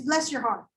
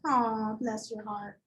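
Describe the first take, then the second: First: Lightly Southern, falling; a hint of sweet Southern; Southern "bless your heart". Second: Slow, syrupy "Aw, bless your heart"; sugary mock sympathy. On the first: Teacher quoting the South's favourite euphemism, lightly Southern. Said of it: "the most popular one". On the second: Teacher performing the Southern euphemism, slow and syrupy. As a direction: drag it out, sweet and pitying. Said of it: "Have you guys ever heard that". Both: Shown as a demonstration.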